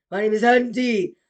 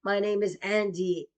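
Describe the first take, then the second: First: Andy hit hard and loud; louder, insistent Andy. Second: Said in the usual way. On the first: Shown as a demonstration.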